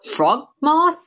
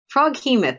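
First: It is said with two syllables, frog-moth. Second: It is said with three syllables, frog-he-moth. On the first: The speaker calls it wrong. "correct my pronunciation on this" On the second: The speaker calls it right. "That makes a lot more sense"

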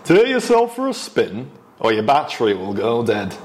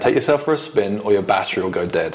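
First: It is said in a northern English accent. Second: It is said in the speaker's ordinary accent.

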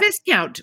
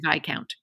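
First: The word is said as it is spelled. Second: The word is not said as it is spelled. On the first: The speaker calls it wrong. "which is how it's spelled" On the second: The speaker calls it right. "It is actually Viscount"

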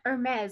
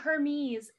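First: It is pronounced like the fashion brand's name. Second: It is pronounced like the Greek god's name. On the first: It names the designer bag brand. "like the designer bags" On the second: It names the messenger of the gods. "Hermes, like Hermes, the Greek god"

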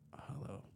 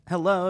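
First: It is said in a put-on deep voice. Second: It is said in a normal voice.

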